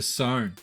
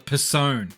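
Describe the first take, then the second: First: The word begins with an S sound, no P. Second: The word begins with a spoken P sound.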